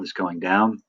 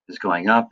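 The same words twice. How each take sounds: First: "down" said with a falling tune. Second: "up" said with a rising tune. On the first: Teacher showing students the grave accent, falling tune. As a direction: let DOWN fall in pitch. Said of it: "it's supposed to go down". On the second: Teacher showing students the acute accent, rising tune. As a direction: lift UP at the end. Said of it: "the acute goes up". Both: Shown as a demonstration.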